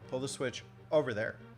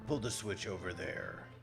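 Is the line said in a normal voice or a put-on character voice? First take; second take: normal; put-on. First: It is said in the speaker's ordinary voice. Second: It is said in a put-on character voice. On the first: "I forgot to do it in the Zelda voice" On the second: "in the Zelda voice"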